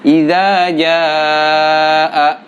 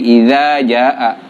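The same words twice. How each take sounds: First: The long vowel is held for a long time. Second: The long vowel is cut short. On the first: The speaker calls it right. "enam harokat di situ ya" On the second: The speaker calls it wrong. "malah pendek menjadi"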